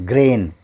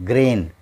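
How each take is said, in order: The two takes are said the same way.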